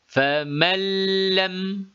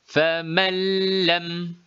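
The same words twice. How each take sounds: No difference in how they are said.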